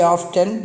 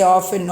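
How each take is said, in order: First: OFTEN as "off-ten", T pronounced; sounded T. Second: OFTEN as "offen", no T; silent T. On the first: Teacher shows how Americans say often, T sounded. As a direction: put a clear T in "often". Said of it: "Americans say often". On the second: Teacher shows what we always say, often with silent T. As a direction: drop the T from "often". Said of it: "T is silent". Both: Shown as a demonstration.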